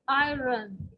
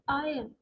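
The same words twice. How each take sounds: First: The R sound is clearly pronounced. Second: The R sound is left silent. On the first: The speaker calls it wrong. "commonly mistaken words, we can say iron" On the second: The speaker calls it right. "So your R is silent over here"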